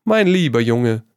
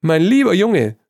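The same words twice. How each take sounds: First: A smiling, fond address. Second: High and loud through laughter; can barely get it out for laughing. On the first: Trevor soothing flustered Hugo with a fond smile. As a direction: say it with a smile, gently amused. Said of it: "sagte Trevor und lächelte". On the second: Trevor still laughing at Hugo, loud and high. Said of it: "konnte sich vor Lachen nicht halten". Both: A narrator's reading.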